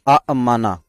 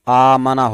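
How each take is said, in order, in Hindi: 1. पहले छोटे स्वर के बाद ग्लोटल स्टॉप आता है। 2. पहला स्वर दीर्घ है, उसमें कोई ग्लोटल स्टॉप नहीं है। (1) "ये अकरमा के वज़न पर असल में अअमना था।" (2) "दूसरे हमजा को अलिफ कर दिया गया तो आमना हो गया।"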